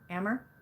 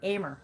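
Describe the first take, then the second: First: The first vowel sounds like in American. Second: The first vowel sounds like in Amy. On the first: "like American?" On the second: "like Amy"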